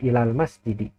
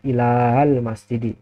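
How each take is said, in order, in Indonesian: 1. Vokal sebelum huruf L dibaca pendek. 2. Vokal sebelum huruf L dibaca panjang. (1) "dibacanya ilal masjidi" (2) "tidak dibaca ilal masjidi"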